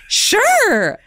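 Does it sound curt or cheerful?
cheerful. It is said brightly and cheerfully.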